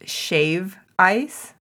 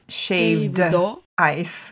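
First: There is no d sound after shave. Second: There is a d sound after shave. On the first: This is the name used in Hawaii. The speaker calls it right. "So in Hawaii, it's just shave ice" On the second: This is the past-tense form not used in Hawaii. The speaker calls it wrong. "It's not shaved ice"

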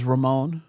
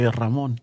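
First: The name is said with an English pronunciation. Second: The name is said with a Spanish pronunciation. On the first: The speaker calls it wrong. "I never pronounce it as Ramon" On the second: The speaker calls it right. "I always try to say Ramon"

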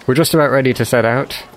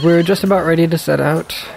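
First: It is said in a lower voice. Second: It is said in a higher voice.

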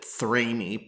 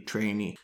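First: The word begins with a 'th' sound. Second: The word begins with a plain 't' sound. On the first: The speaker calls it wrong. "I always called it Thrainee" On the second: The speaker calls it right. "I believe the Latin pronunciation would be Trainee"

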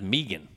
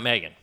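First: The name is said with an unusual Canadian pronunciation. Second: The name is said with the usual common pronunciation. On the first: The speaker calls it right. "her name is pronounced Megan, believe it or not" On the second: The speaker calls it wrong. "Not Megan"

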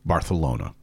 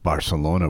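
First: The 'c' is said as a th sound. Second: The 'c' is said as an s sound.

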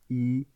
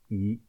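First: The pitch stays high and level. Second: The pitch rises from mid to high. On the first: "pour le chiffre 1 au premier ton" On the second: "Pour le même chiffre 1 mais au deuxième ton"

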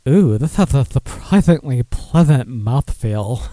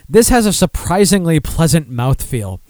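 First: It is said in a suggestive, innuendo-laden tone. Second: It is said in a plain, matter-of-fact tone.

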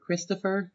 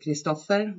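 First: The name is said with an American pronunciation. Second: The name is said with a Swedish pronunciation.

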